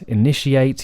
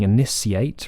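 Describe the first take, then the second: First: The middle consonant is an SH sound. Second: The middle consonant is an S sound. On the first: The speaker calls it right. "technically we should say" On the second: The speaker calls it wrong. "you wouldn't hear people saying"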